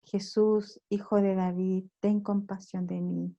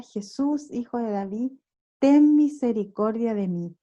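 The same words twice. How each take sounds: First: Soft, level-pitched recited invocation; repeated prayer. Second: Raised plea, only lightly called out; mild imitated cry. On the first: Shown as a demonstration. Preacher showing how the Orthodox repeat the prayer, soft recitation. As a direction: recite it quietly, like a constant prayer. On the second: Preacher quoting Bartimeo calling to Jesús, mild imitated cry. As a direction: mildly imitate crying out for mercy. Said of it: "comienza a gritar".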